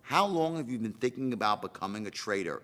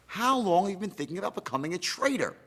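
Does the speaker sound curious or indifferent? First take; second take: indifferent; curious. First: The question sounds flat and uninterested. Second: The question sounds warm and genuinely curious. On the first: The asker does not care about the answer. The speaker calls it wrong. "Not how long you been thinking about becoming a trader" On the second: The asker really wants to know the answer. The speaker calls it right. "Notice the tonality says, I really want to know"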